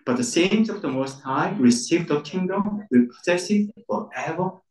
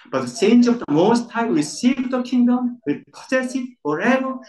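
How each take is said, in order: First: Said in the usual way. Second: Raised and stressed, saints and forever leaned on; emphatic reading. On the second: Shown as a demonstration. Preacher asks congregation to read with emphasis. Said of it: "But emphasis one more time".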